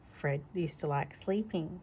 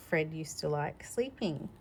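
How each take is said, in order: Both takes have the same delivery.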